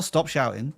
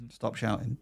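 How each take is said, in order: First: Said in the usual way. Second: "Stop shouting" said much softer, dropped low; quiet repeat. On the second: Real, not acted. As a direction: mutter "Stop shouting" under the breath.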